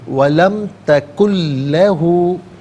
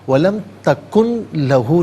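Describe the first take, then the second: First: The n merges fully into the following l. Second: The n is pronounced clearly before the l. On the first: The speaker calls it right. "नून साकिन को लाम के साथ मिलाएंगे" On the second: The speaker calls it wrong. "नहीं"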